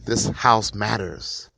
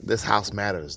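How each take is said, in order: First: Slow, drawn-out call of this house matters; half-hearted retold yell; mild mock yell. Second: Said in the usual way. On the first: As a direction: call it out slowly, as if to the street. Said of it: "yells out". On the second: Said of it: "if someone were to yell out".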